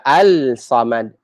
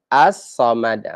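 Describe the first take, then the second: First: Al-samad with the l sounded; unassimilated al-samad; wrong al-samad. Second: As-samad slowly with a doubled s; As-samad, no l heard; assimilated as-samad. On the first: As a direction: say al-samad, lam kept. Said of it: "we don't say". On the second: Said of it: "we don't say al-samad". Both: Shown as a demonstration.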